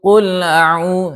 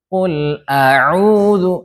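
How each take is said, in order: First: The glottal stop is slurred and barely heard. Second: The glottal stop is pronounced clearly and distinctly. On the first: The speaker calls it wrong. "yang terseret yang enggak jelas" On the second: The speaker calls it right. "Contoh yang jelas"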